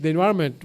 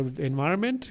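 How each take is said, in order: First: Said in the usual way. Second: "environment" in a slight Eastern European accent, rising at the end. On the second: Real, not acted. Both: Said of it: "Where the fuck the weird accent?".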